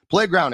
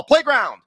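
First: Said in the usual way. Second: Playground, stretched higher and louder; hyped brand name. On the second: Shown as a demonstration. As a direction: shout the brand like a jingle.

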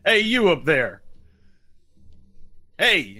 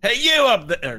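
First: Loud, raised sheriff's holler; settled call from down below; yelling up. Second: High, loud shout from below; first try at a sheriff's holler, pitched way up; calling up. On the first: Sheriff yelling up at the players, hollering. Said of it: "he's yelling up at you". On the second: Sheriff to those up on the hand, calling up. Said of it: "You hear a voice from down below". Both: Acted.

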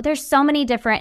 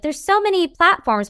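First: Said in the usual way. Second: Lightly voiced old lady, higher; a hint of a fussy old lady. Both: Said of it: "I sound like an old lady now".

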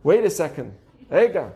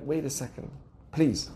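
First: A hint of a blunt Israeli; mildly brusque Israeli "wait"; Israeli-style interjection. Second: Soft, low plea for patience; quiet, polite interjection; restrained request to wait. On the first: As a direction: cut in firmly, lightly playing an Israeli. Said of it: "If you're Israeli". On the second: Acted. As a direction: gently hold them off, low and quiet. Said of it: "And you're like".

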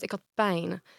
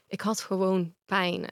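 First: Said in the usual way. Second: Slow, with the weight on "had"; insisting slowly, "had" stressed. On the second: Real, not acted. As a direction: lean into "had" and take it slowly.

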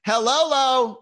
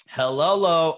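First: High, loud, goofy greeting; exaggerated high-pitched weird hi; weird hello. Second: Loud, puzzled sounding-out of a greeting; loud weird hi, pitch near usual; weird hello. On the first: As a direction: holler a silly hello back. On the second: Retold or imitated. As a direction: read the odd greeting out loudly. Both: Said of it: "you're saying hi in a weird way".

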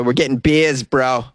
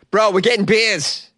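First: Said in the usual way. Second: Higher and slower, stretching "getting"; hyped promise. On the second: Real, not acted. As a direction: sell it like the best plan ever. Repeats promise with extra gusto.

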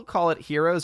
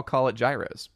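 First: Heroes said like "HEER-ohz"; pronunciation HEROES. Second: Gyros said like "JYE-rohz"; pronunciation GYROS. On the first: Host asking callers how they say it, Heroes as "HEER-ohz". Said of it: "do y'all call it Heroes or". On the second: Host offering the other option, gyros as "JYE-rohz". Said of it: "do y'all call it gyros". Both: Shown as a demonstration.

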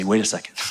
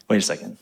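First: Said in the usual way. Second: "Wait a second" said fast through a little laugh; laughing realization. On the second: Pretend. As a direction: catch yourself and laugh at the thought. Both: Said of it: "you pause and you say".

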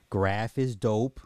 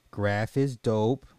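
The two takes are said the same way.

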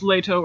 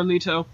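First: "Leto" said LAY-toh; pronunciation variant. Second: "Leto" said LEE-toh; alternative pronunciation. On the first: Host weighing two pronunciations, "Leto" as LAY-toh. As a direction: give "Leto" a long A in the first syllable. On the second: Host weighing two pronunciations, "Leto" as LEE-toh. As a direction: give "Leto" a long E in the first syllable. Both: Shown as a demonstration. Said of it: "supposed to be pronounced Leto or Leto".

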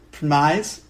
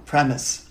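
First: Premise said as /pʰmaɪz/, rhyming with rise; mispronounced premise. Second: Premise said as /ˈprɛməs/, short e; corrected premise. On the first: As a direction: premise with a long I, questioning. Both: Shown as a demonstration. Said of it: "No, premise".

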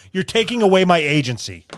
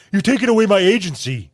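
First: Mild mock of a pretentious phrase; mocking quote. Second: Sneering parody of the phrase; mock the phrase as pretentious; mocking quote. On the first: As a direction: parrot it with scorn. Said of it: "Who says". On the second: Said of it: "who talks like that?".

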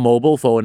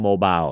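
First: "mobile" as MO-bol, short ending; American pronunciation. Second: "mobile" as MO-bile, rhyming with mile; British pronunciation. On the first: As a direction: say "mobile" like "mobo". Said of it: "คนอเมริกาเรียกโทรศัพท์มือถือว่า". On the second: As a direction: say "mobile" with a long "eye" ending. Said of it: "คนอังกฤษเรียก". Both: Shown as a demonstration.

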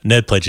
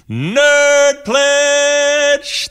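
First: Said in the usual way. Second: "Nerd Pledge" very high and drawn out; showy game-show pronunciation. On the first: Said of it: "Nerd Pledge is pronounced". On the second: Shown as a demonstration. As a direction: stretch "Nerd Pledge" into a long, high-pitched call. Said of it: "That's how you say it".

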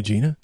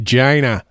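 First: Said in the usual way. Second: Gina with a hard G, like China; pronounced Gina. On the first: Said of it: "Nah, it's pronounced Gina". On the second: Shown as a demonstration. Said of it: "it's pronounced Gina".

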